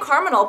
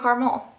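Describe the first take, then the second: First: It is said with an n, like criminal. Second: It is said with an l ending, without n.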